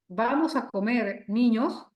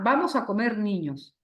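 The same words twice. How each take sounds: First: There is a pause before the last word. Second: There is no pause before the last word. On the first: The children are being told it is time to eat. "en el primero le estamos diciendo a los niños que vamos a comer" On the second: The children are what will be eaten. "En el segundo estamos diciendo que lo que vamos a comer son niños"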